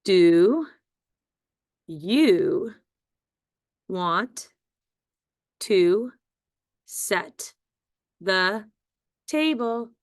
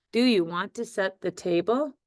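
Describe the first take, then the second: First: Each word said apart for spelling; word by word dictation. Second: Said in the usual way. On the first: Shown as a demonstration. Teacher dictating to young spellers, word by word. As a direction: dictate it one word at a time. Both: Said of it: "The second sentence has seven words".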